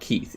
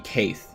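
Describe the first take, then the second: First: The vowel sounds like 'ee' as in 'see'. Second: The vowel sounds like 'ay' as in 'day'. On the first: It is the usual way the name is said. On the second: It follows the spelling rule.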